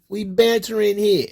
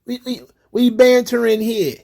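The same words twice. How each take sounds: First: A hint of a put-on joker voice; mock banter voice. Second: Higher, loose mock of the poster; lightly voiced "we bantering" mock. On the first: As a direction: repeat it in a higher, put-on tone. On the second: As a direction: play the unbothered joker. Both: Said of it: "Come on, it's jokes".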